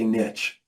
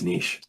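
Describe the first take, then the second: First: It is said the American way, like nitch. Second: It is said the Canadian way, like neesh.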